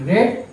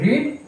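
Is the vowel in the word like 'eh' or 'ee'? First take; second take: eh; ee. First: The vowel is a short 'eh' sound. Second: The vowel is a long 'ee' sound. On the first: It is the past tense form. "Past টেন্সের বেলায় বলি রেড" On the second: It is the present tense form. "Present টেন্সের বেলায় বলি রিড"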